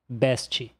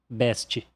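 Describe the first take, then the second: The two takes are said the same way.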